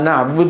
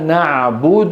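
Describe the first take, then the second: First: The last consonant is closed with almost no vowel. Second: The last consonant ends with a clear 'u' vowel. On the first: The speaker calls it wrong. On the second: The speaker calls it right.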